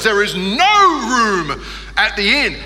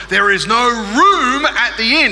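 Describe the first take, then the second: First: "no" punched and lifted, slow delivery; stress on no. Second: Put-on slow, higher and louder kid recitation; practising the line. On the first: Retold or imitated. Boy at the mirror, trying stress on "no". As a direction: lean hard on "no". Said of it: "He'd emphasize different words". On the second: Boy at his mirror, practising loud and slow. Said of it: "he would go over his line".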